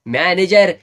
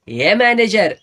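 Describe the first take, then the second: First: Loud call across the stage for manager; drunken shout. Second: "हे manager" yelled higher and loud, drawn out; higher, louder shout. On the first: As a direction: bellow "manager" to summon him. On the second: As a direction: bellow "हे manager" again, pitched up. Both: Retold or imitated. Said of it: "ओरडला".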